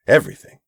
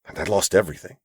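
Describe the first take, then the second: First: Everything repeated higher and louder; stress on everything. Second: Said in the usual way. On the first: Acted. Abram repeats everything for emphasis.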